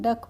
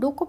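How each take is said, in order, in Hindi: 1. स्वर 'cup' में 'u' जैसी आवाज़ करता है। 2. स्वर 'book' में 'oo' जैसी आवाज़ करता है। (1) "डक पढ़ते हैं" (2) "इसको डुक नहीं पढ़ते हैं"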